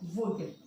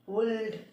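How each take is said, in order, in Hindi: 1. L की ध्वनि छोड़ दी जाती है। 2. L की ध्वनि स्पष्ट रूप से बोली जाती है। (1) "एल जो है वो इसमें साइलेंट है" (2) "इसका प्रोनाउंसिएशन वुल्ड नहीं है"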